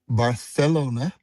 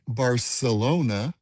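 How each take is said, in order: First: The c is said as a th sound. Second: The c is said as an s sound. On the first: The speaker calls it right. "Let me say it right" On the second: The speaker calls it wrong. "people will laugh at you"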